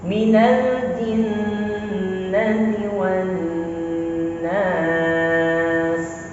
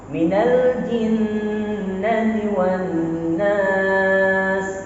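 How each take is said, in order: First: The pitch falls low at the end. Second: The pitch stays high at the end. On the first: The speaker calls it right. "ujungnya turunkan" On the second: The speaker calls it wrong.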